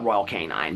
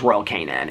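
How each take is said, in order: First: The second word ends with a long 'nine' sound. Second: The second word ends with a short 'nin' sound. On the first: The speaker calls it wrong. "I call it Royal Canine" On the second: The speaker calls it right. "but I think it's Royal Canin"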